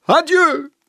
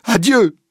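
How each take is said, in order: First: Even higher, loud despairing farewell; shrill-peaked final Adieu, loud and falling; crying out. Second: Loud, high dramatic farewell cry; shouted Adieu, pitched high. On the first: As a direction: push the second Adieu much higher. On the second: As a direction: fling the goodbye out loud. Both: A narrator's reading. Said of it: "Puis il se redresse et crie".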